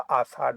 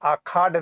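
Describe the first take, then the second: First: The middle consonant is a sh sound. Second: The middle consonant is a kh sound. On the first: The speaker calls it right. "आषाढ़ होगा" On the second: The speaker calls it wrong. "आखाड़ नहीं होगा"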